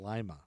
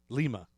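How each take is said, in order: First: It uses the local Ohio pronunciation. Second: It uses the original foreign pronunciation. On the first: This is how the Ohio town is called. The speaker calls it wrong. "I'm used to Lima, Ohio" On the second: This is how the Peruvian capital is called. The speaker calls it right.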